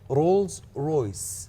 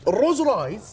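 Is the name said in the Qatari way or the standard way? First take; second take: standard; Qatari. First: It is said with standard 'Rolls Royce' sounds. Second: It is said as 'al-Roz Raiz', Qatari style. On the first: "النطق صحيح للشركه" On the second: "خلينا نقولها بالقطري كذي"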